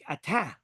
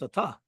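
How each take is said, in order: First: The vowel sounds like the one in 'tap'. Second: The vowel sounds like the one in 'bus'. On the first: The speaker calls it wrong. "many of us just say tap, right? Like atah. It's not atah" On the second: The speaker calls it right. "It's a ta, right? ... A ta, bus"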